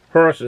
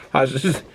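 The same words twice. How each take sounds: First: Said in the usual way. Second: "Horses" in a Boston accent, said "hah-sez" with no R sound. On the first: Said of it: "I don't pronounce my R's". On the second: Shown as a demonstration. Beer reviewer showing off his own Boston accent, R dropped. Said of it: "It's a Boston accent".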